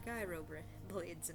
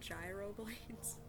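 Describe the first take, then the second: First: The G at the start is silent. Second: The G at the start is pronounced. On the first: "They're gyro blades now" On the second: "instead of calling them gyro blades"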